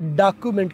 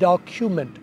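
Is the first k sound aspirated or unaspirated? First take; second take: unaspirated; aspirated. First: The k sound is plain, without a burst. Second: The k sound has a strong puff of air. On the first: The speaker calls it wrong. "डॉक्यूमेंट की बजाय" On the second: The speaker calls it right. "सी की आवाज़ को blast करेंगे, काफ की बजाय खे करेंगे"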